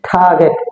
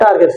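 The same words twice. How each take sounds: First: The first t has a strong puff of air. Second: The first t is plain, without a puff of air. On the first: The speaker calls it right. "সেটা কি কি হবে টার্গেট।" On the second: The speaker calls it wrong. "আমরা বলতাম টার্গেট"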